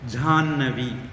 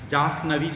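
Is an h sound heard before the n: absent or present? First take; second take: absent; present. First: No h sound comes before the doubled n. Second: An h sound is heard before the n. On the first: The speaker calls it right. "நம்ம சொல்றது ஜான்னவி அப்படின்னு சொல்லுவோம்" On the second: The speaker calls it wrong. "ஜாஹ்னவி சொல்ல மாட்டோம்"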